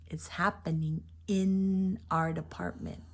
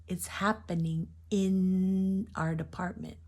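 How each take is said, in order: The two takes are said the same way.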